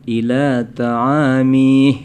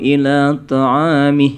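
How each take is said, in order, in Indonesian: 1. Vokal akhir dipanjangkan. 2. Vokal akhir dibaca pendek. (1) "jangan dipanjangkan gitu ya" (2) "Pendek pendekkan aja"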